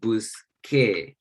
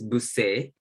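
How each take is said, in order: First: The consonant before the final vowel sounds like k. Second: The consonant before the final vowel sounds like s. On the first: The speaker calls it right. "still has the hard K sound" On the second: The speaker calls it wrong. "this soft C sound"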